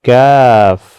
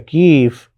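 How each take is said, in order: First: The vowel after k is an ai sound. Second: The vowel after k is a long ee. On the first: The speaker calls it right. "बल्कि इसको कहते हैं कैफ" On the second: The speaker calls it wrong. "या कीफ"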